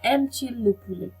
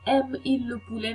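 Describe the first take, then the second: First: A t sound links the verb and pronoun. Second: The vowels run together with no t sound. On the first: The speaker calls it right. "ते सुनाई देता है" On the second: The speaker calls it wrong. "नहीं बोला जाता"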